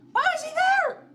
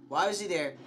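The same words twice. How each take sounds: First: Very high, loud shriek of alarm; panicked scream. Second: Said in the usual way. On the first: Real, not acted. Player screams at a figure appearing, panicked. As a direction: scream it in real shock. Jump scare in game.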